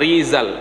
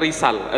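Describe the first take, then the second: First: The middle consonant is a buzzing z sound. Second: The middle consonant is a hissing s sound. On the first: The speaker calls it right. "Masih kurang tertampil zanya Rizal" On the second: The speaker calls it wrong. "bukan Risal"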